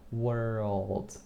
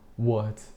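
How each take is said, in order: First: The R and L sounds are clearly pronounced. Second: The R and L sounds are dropped. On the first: The speaker calls it right. "this kind of sound of like world" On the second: The speaker calls it wrong. "I used to say like"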